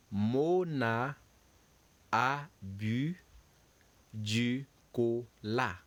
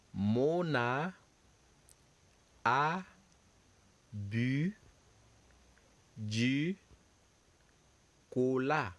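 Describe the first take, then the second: First: "Mona a bu du cola" said as one run, "du cola" drawn out; French sentence. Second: "Mona a bu du cola" said word by word with long gaps; slow dictation. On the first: Teacher reads the whole French sentence for students. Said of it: "So the sentence says". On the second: Teacher models the French sentence slowly for students. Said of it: "So repeat after me". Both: Shown as a demonstration.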